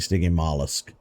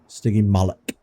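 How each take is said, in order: First: The word ends with a 'lusk' sound. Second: The word ends with a 'lock' sound. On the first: The speaker calls it wrong. "I have been pronouncing it wrong this whole time. I've been saying Stygimollusk" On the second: The speaker calls it right. "now I know"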